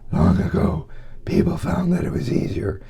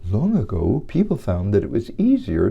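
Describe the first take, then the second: First: The voice is limp, airy and fluttery. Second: The voice is lively with widely varied pitch. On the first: "allow the vocal cords to go limp. ... a very high airflow with fluttery vocal cords" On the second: "reading to children. That measures uh, inflection, pitch, agility, and expressive range"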